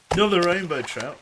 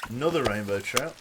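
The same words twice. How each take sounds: First: Excited. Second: Said in the usual way. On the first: Shown as a demonstration.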